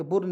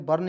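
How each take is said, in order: First: बुर्न with a rounded "oo" vowel, bʊrn; wrong pronunciation shown. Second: बर्न with a short neutral "uh" vowel, bərn; correct pronunciation. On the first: Teacher showing students the wrong reading to avoid. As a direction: say बुर्न with a full u to show the mistake. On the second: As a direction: say बर्न as bərn, not burn. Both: Shown as a demonstration. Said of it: "बुर्न नहीं पढ़ेंगे".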